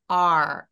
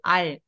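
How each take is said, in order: First: The letter name is drawn out long. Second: The letter name is said short. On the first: The speaker calls it right. "R처럼 길게" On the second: The speaker calls it wrong. "R 아니라"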